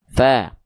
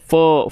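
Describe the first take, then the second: First: The vowel is thin and sounds like a. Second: The vowel is thick and sounds like o. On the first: The speaker calls it right. "tapi fa" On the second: The speaker calls it wrong. "dia tidak dibaca fo"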